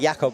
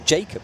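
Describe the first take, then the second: First: The name is said the European way. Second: The name is said the British way. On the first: The speaker calls it wrong. "I've been saying Jakob" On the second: The speaker calls it right. "it's British pronunciation"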